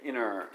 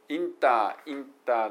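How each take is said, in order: First: The T after N is dropped, nearly silent. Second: The T after N is clearly pronounced. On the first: "inner ぐらいです" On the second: "inter ではなくて"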